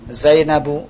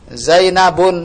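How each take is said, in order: First: The name ends on a vowel without n. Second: The name ends with an added n sound. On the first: The speaker calls it right. "Yang benar? Zainabu" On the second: The speaker calls it wrong. "Zainabun, salah"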